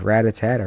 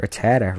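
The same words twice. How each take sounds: First: Rattata as RAT-uh-TAT-uh; alternate pronunciation. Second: Rattata as ruh-TAT-uh; alternate pronunciation. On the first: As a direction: say Rattata with a full RAT at the start. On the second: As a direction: say Rattata with a short first syllable, stress on TAT. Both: Shown as a demonstration. Trying out rival pronunciations of name.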